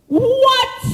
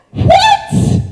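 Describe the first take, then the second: First: A milder, still raised "What?"; disbelieving echo. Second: Shouted high in disbelief, "What?"; a shout of total disbelief at a talking donkey; shocked shout. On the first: Preacher repeats his disbelief to the congregation, a milder "What?". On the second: Preacher stunned as the donkey talks back, shouting "What?". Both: Real, not acted.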